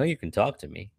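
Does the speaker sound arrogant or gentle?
arrogant. The tone sounds arrogant and condescending. The speaker seems to be doing the listener a favor. The speaker calls it wrong. "That almost sounds like kind of arrogant in a way"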